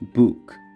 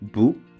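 First: The final k is released with a vowel. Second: The final k is held and unreleased. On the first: "원래는 을을 넣어서 읽을 수도 있습니다" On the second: "음절의 끝소리 밑으로 읽을 수가 있기 때문에"

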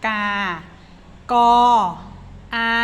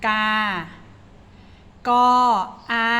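The two takes are said the same way.

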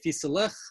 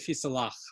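First: The word ends with an 'ich' sound. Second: The word ends with an 'ach' sound. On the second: This is how Litvaks say it. "the Litvak say Fislach"

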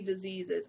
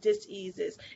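First: The word is said smoothly as one unit. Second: The word is split into dis and ease. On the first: It names an illness. The speaker calls it wrong. "I don't say diseases" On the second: It names a lack of ease or energetic imbalance. The speaker calls it right. "I say diseases"

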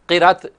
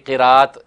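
First: The second syllable has a short vowel. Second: The second syllable has a long vowel. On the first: The speaker calls it wrong. "क़िरत का लफ्ज़ बोलना गलत है" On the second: The speaker calls it right. "क़िरात बोलना चाहिए।"

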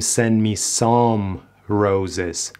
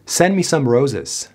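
First: The vowel in 'some' is fully stressed. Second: The vowel in 'some' is a weak schwa. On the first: The speaker calls it wrong. "نمیگیم" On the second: The speaker calls it right. "some some ا ا بدون اینکه زور بزنیم"

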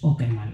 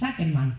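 First: The first vowel sounds like O. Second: The first vowel sounds like A. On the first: The speaker calls it right. "en sueco la A con redondita arriba es O" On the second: The speaker calls it wrong. "toda la gente dice Nils Åkerman. Pues no"

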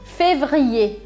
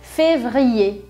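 Both takes have the same delivery.

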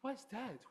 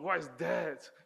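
First: It sounds excited and delighted. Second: It sounds dismissive and unpleasant.

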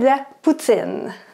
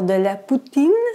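First: It is said with a Quebec French accent. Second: It is said with a European French accent. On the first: "Mais au Québec, c'est" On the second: "un Européen ou quelqu'un qui apprend le français va dire"

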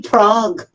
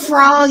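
First: The word begins with a p sound. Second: The word begins with an f sound. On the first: The speaker calls it wrong. "hindi prog" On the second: The speaker calls it right. "F, frog"

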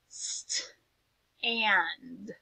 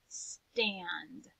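First: The word is said slowly, split into two parts. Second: The word is said smoothly as one whole.

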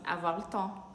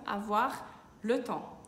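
First: It is said quickly, with a short le. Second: It is said slowly, with a full le.

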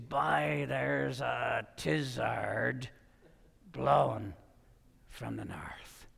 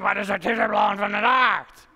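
First: It is said slowly in a local dialect. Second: It is said fast in a local dialect.

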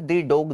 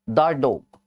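First: 'The' is pronounced 'thee' before dog. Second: 'The' is pronounced 'thuh' before dog. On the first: The speaker calls it wrong. "दी dog नहीं होता है" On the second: The speaker calls it right. "द dog होता है"

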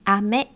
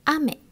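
First: The pitch rises across the word. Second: The pitch does not rise across the word. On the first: It means candy. "If you raise the tone, it means candy" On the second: It means rain. "Ame is rain"

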